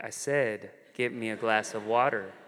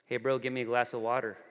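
First: Low, firm imitation of a bossy sister; insistent command. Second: Quick, offhand imitation of a big sister; casual sibling request. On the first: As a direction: repeat it deliberately, lower, expecting obedience. Sister repeats order after refusal. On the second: Older sister at dinner to her brother, casually bossy. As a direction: toss out the request lightly and quickly.

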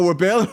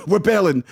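First: "We're bailing" rising as a loud question; questioning echo. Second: "We're bailing" loud with a falling end; insistent confirmation. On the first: Friend checking with the star, "We're bailing" as question. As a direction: echo "We're bailing" back in disbelief, pitched up. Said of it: "I go". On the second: Star answering his friend, "We're bailing" falling and insistent. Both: Retold or imitated.

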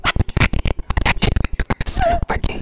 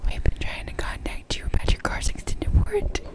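First: Fast high robocall rant. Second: Whispered robocall line; breathy robocall whisper. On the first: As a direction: rush it like a spam call. Robocall parody, loud fast. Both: Pretend.

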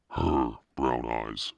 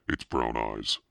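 First: HER slowed right down and leaned on; stress on HER. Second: Said in the usual way. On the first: A narrator's reading. Daughter studying her sculpted face, HER stressed slowly. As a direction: dwell on HER, drawing it out.

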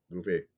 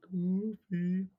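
First: Said in the usual way. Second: High call across a room. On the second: Real, not acted. Calling an absent cohost.

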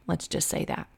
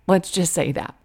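First: Softly whispered, voiceless; whispered aside. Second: Said in the usual way. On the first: Real, not acted. Speaker confiding her unwell soul, whispered. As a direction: breathe it out as a secret.

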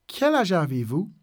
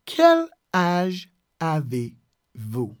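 First: Said in the usual way. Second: "Quel... âge... avez... vous", long gaps between; very slow, word by word. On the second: Shown as a demonstration. Teacher showing the question for someone not close, very slow, word by word. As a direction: dictate it at half speed. Teacher breaks phrase into words.

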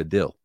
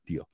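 First: "deal" said as "del", with a short e; Utah deal. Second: "deal" said as "dio", with a dark l like a vowel; standard deal. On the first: Host imitating how Utahns say deal, as a short del. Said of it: "Acá en Utah se pronuncia deal". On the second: Host showing standard English deal before the Utah one, ending like dio. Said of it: "Acá en Utah se pronuncia". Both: Shown as a demonstration.

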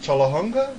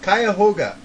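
First: Chalahunga said as SHAH-luh-hung-guh, unsure rising; unsure attempt. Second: [name] said KY-uh-HOH-guh, firm fall; corrected pronunciation. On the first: Trying to pronounce the track title, Chalahunga, unsure. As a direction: try Chalahunga with a hesitant rise. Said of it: "Let's see if I could say it". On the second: Repeating the friend's correction, [name], loud and sure. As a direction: say [name] clearly, confidently. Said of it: "I knew it was [name]". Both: Real, not acted.

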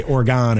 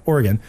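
First: "Oregon" with its last syllable like "gone"; wrongly said Oregon. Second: "Oregon" with a short, reduced "gun" ending; corrected Oregon. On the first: Admitting his habit, "Oregon" ending in "gone". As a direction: say "Oregon" with an open, full "gahn" ending. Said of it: "I always say Oregon". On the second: Giving the corrected form, "Oregon" ending in "gun". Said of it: "people always correct me". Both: Shown as a demonstration.

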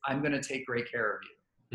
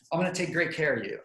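First: Calm and confident. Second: Flustered and rushed. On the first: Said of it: "a demeanor that looks calm and confident". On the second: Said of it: "You can't be like". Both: Shown as a demonstration.

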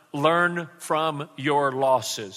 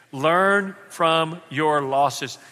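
First: Slow, every word weighed; slow emphatic. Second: Slow, each word given weight; slow emphatic repeat. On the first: Pastor giving the congregation a line to repeat, slow and emphatic. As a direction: spell it out slowly for the congregation to repeat. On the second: Pastor repeating the line with the congregation, slow and emphatic. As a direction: say it back slowly with the crowd. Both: Shown as a demonstration. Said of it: "Say that with me".

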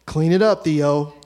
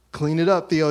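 First: Loud mock order, copying dad; bossy order. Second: Loud mock order, repeated firmly; bossy order. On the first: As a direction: bark it like the boss of the house. Older brother echoing dad's order. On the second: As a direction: echo the command, louder, bossy big brother. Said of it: "he follows up with".

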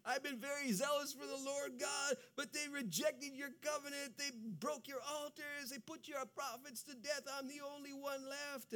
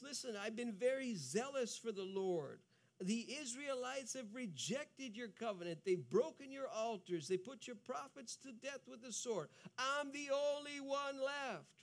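First: Anguished Elijah. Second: Retold at normal pitch and level; plain Elijah complaint. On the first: Acted. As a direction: cry out the complaint as desperate Elijah. Elijah repeats his complaint, anguished. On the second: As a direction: tell the complaint calmly. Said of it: "Elijah says the same thing".

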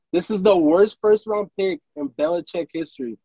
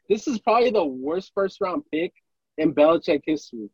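First: "This is the worst first round pick" dragged out, every word hit; emphatic repeat. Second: Said in the usual way. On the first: Shown as a demonstration. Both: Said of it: "I'm gonna repeat this again".

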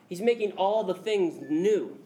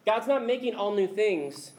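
First: Slow "all the things", landing on "new"; stress on NEW. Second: "all new things" said as one phrase, the rejected wording; stress on new things. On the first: Preacher giving the true reading, slow weight on "new". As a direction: draw out the line and set "new" apart at the end. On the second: Preacher correcting a misreading, "new things" kept together. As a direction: set up "new things" as the wrong reading. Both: Shown as a demonstration. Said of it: "He just made that very important distinction".

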